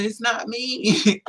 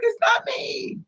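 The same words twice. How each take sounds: First: Said in the usual way. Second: Very high crying yell; mock scared shout. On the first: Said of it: "kept telling him". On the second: Denying to the attacker, high crying shout. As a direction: yell the denial in a frightened wail. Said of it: "I was scared as hell".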